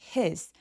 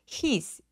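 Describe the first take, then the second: First: The h is a light puff of air. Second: The h is pronounced strongly and distinctly. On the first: The speaker calls it right. "입 안에서 공기만 확 빠져나오는 그런 느낌이라서" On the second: The speaker calls it wrong. "he라고 너무 또렷하게 소리내지 않습니다"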